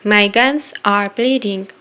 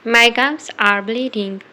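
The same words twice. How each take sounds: The two takes are said the same way.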